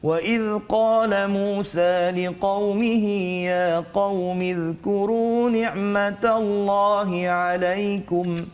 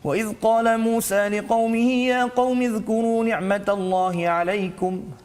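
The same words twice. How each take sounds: First: It is recited fairly slowly, slightly quicker. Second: It is recited very quickly and rapidly. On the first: "tartil itu laju sedikit" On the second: "bacaan yang paling laju pula dipanggil sebagai al-hadar"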